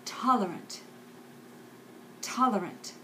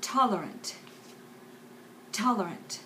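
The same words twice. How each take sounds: The two takes are said the same way.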